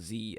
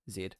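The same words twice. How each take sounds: First: The letter is said the American way. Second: The letter is said the British way.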